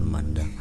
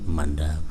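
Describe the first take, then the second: No difference in how they are said.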